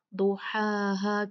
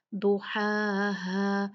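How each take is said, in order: First: "दुहाहा" with both "हा" as plain h; slow "दुहाहा", identical h sounds; wrong h. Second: Very slow "दुहाहा", throaty first "हा", plain second; drawn-out "दुहाहा"; distinct h sounds. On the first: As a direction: lose the throaty first h in "दुहाहा". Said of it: "हर्फ हा है उसको बदल दिया". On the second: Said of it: "ये हा और फिर हा है". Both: Shown as a demonstration.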